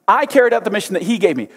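The pronouns I and he are emphasized.

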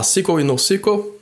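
The terms are pronounced with English sounds. This is how the terms are said in English. "em inglês, obviamente, você vai ter que falar"

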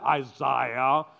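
The name is said with a British pronunciation. "these Brits will come and they'll say Isaiah"

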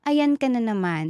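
The phrase is said in a sweet, gentle tone. The remark is meant kindly. The speaker calls it right. "How you said it kanina na, ... Ang sweet nung dating"

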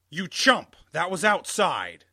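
It is said in an angrier voice.

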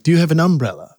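It is said in a Southern US accent. "But you come down and you're like"

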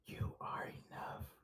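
It is said in a soft whisper.

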